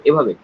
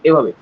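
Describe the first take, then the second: Both takes have the same delivery.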